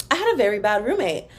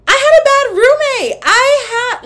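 First: Said in the usual way. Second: High, loud dramatic wail; hammed-up screaming outburst; mock-hysterical yell. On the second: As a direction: yell the confession at the top of your voice. Mock outburst revealing bad roommate.

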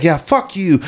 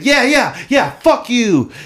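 First: Higher-pitched retold jeer; imitated trash talk. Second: Very high, drawn-out mock jeer; exaggerated mimicking. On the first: Opposing player talking shit online, imitated jeer. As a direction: lightly mimic an opponent swearing. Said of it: "He's like". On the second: Player parroting the opponent as if on his side, exaggerated mimicking. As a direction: echo the heckler with gleeful overkill. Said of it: "I just repeat everything he says".

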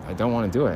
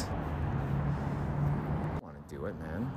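First: Said in the usual way. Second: Barely audible, slow, breathy under the breath; slow dreading whisper to himself. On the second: Real, not acted. Dreading stabbing a dog.

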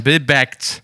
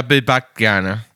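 First: Backt said with an open e, like bäckt; Bill bäckt, vowel e as in English bake-t. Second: Backt said with a plain a, like backen; Bill backt gerne, vowel a as in Bach. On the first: Asks which form of backt is right, says Bill bäckt. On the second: Tries the other form, says backt with an a. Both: Shown as a demonstration. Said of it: "Heißt es backt oder backt".

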